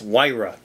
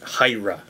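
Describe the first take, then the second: First: The first syllable has a 'why' glide. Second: The first syllable has no 'why' glide. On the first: The speaker calls it right. "with a Y. It's like a Y" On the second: The speaker calls it wrong. "I accidentally pronounced this as Hyra"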